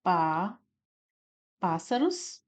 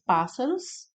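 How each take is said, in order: First: "Pá" alone, long pause, then "pássaros"; syllable by syllable. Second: Said in the usual way. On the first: Shown as a demonstration. Teacher isolating the stressed syllable, "Pá, pássaros" with a pause. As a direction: isolate "Pá" before saying "pássaros". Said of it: "o pás, né, como sílaba tônica". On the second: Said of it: "Nós temos aqui o pás".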